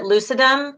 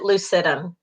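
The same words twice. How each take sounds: First: "lucidum" stressed on the first syllable, LOO-sih-dum; "lucidum" as LOO-suh-dum, front-stressed; alternative pronunciation of lucidum. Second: "lucidum" stressed on the middle syllable, loo-SID-um; common pronunciation of lucidum. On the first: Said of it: "You may hear other people pronounce it". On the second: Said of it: "but most people pronounce it lucidum". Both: Shown as a demonstration.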